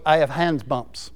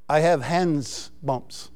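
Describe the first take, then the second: First: "I have hands bumps" said low and soft again, hands for hens; mock translator's "hands bumps", quietly; imitating the translator. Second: "I have hands bumps" said soft and slow, hands for hens; quiet slow mock of the translator's "hands bumps"; imitating the translator. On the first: Preacher repeating his translator's words, softly. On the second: Preacher imitating his Ukrainian translator, soft and slow. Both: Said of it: "He was saying hen instead of goosebumps".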